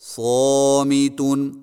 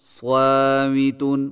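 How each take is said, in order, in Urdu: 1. لمبے الف کی آواز موٹی اور بھرپور ہے۔ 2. لمبے الف کی آواز باریک اور پتلی ہے۔ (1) "موٹے الف کی مشق کیجیے" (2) "الف کو بری کر کے پڑھنا"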